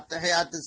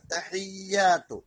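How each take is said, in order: First: It is rushed and the y sound is single. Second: The y sound is held long and doubled. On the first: The speaker calls it wrong. "സ്പീഡിൽ അങ്ങോട്ട് അടിച്ചു വിടുമ്പോ" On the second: The speaker calls it right. "യാ ഇന് ശബ്ദുണ്ട്"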